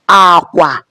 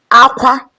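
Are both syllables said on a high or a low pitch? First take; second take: low; high. First: Both syllables are on a low pitch. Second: Both syllables are on a high pitch. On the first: It means bed or bridge. "low low" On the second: It means cry. "high high"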